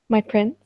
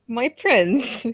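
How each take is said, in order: First: It is said plainly, without force. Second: It is said forcefully through clenched teeth.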